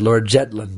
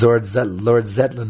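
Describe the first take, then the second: First: The name starts with a J sound. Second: The name starts with a Z sound. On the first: The speaker calls it wrong. "Prabhupada said Lord Jetland. He couldn't say the Z" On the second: The speaker calls it right. "There was Lord Zetland"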